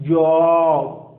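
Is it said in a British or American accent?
British. British accent with a rounded vowel.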